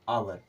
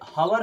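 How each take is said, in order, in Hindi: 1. शब्द की शुरुआत स्वर की ध्वनि से होती है। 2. शब्द की शुरुआत एच की ध्वनि से होती है। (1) "इसे क्या पढ़ते हैं? आवर" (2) "इसे हावर नहीं पढ़ते हैं"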